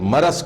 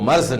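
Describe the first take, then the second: First: A short vowel follows the middle consonant. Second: No vowel follows the middle consonant. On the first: The speaker calls it right. "मरज को" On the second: The speaker calls it wrong. "मर्ज न पढ़िए"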